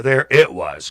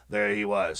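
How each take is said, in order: First: "it" stressed as a pointed correction. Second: Said in the usual way. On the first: Real, not acted. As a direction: lean hard on the word "it".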